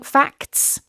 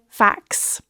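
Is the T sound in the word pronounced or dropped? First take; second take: pronounced; dropped. First: The T sound before the final S is pronounced. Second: The T sound before the final S is dropped. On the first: "instead of saying facts" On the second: "you can cut that T and just say facts"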